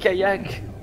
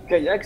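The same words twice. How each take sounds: First: It is said with an English accent. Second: It is said with a French accent.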